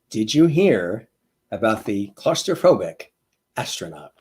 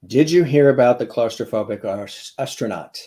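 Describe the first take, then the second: First: It is said slowly. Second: It is said at normal speed.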